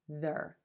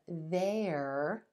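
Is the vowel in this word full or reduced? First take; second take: reduced; full. First: The word has a short, reduced vowel. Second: The word has a full, clear vowel. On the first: "this word is going to reduce to their" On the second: "They are can become there"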